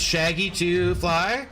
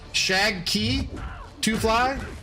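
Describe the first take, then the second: First: The name is said without a K sound. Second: The name is said with a clear K sound. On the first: "It's Shaggy to fly?" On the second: "why is there a K in there?"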